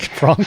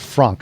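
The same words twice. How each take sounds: First: The name is said with a French pronunciation. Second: The name is said with an English pronunciation. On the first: The speaker calls it right. "the correct pronunciation of your name" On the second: The speaker calls it wrong. "Sorry, not Frank"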